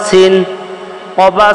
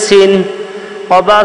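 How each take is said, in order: The two takes are said the same way.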